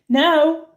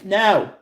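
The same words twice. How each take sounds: First: It is said in a nice, gentle way. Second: It is said plainly and firmly.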